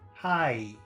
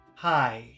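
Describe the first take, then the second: The two takes are said the same way.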